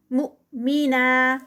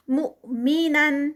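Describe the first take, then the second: First: مؤمنا held two counts at the end; recited stop form. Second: مؤمنن slowly; recited continuous form. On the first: Teacher showing the stop. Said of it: "ٹو counts پہ اینڈ پہ". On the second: Teacher reciting continuously. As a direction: chant مؤمنن with nasal ending. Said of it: "Quran recitation demo". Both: Shown as a demonstration.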